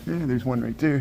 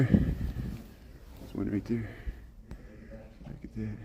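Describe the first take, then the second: First: Said in the usual way. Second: Slow hushed whisper. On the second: Real, not acted. Filming a gorilla up close, slow whisper. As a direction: breathe it out slowly so the animal stays calm.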